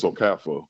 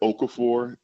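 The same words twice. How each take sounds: First: The final R sound is silent. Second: The final R sound is pronounced. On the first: The speaker calls it right. "where the R is pretty silent" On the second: The speaker calls it wrong. "when people say"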